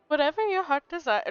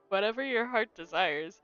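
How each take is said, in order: First: It is read in a put-on accent. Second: It is read in a normal voice. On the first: "I'm still giving them an accent" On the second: "I'm just gonna read it in my normal voice at this point"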